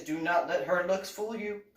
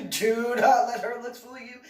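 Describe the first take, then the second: First: Said in the usual way. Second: Louder and higher, stress on not; emphatic repeat. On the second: Retold or imitated. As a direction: insist harder the second time. Repeated warning, second louder.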